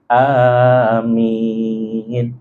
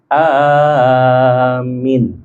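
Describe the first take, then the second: First: Both the first and last vowels are long. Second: The first vowel is long, the last short. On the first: "lafaz hamzahnya panjang dan juga minnya panjang" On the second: "yang satu panjang di awal, yang akhirnya pendek"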